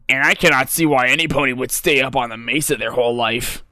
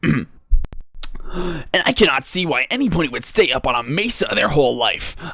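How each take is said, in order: First: The voice is pitched slightly deeper. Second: The voice is at a higher pitch.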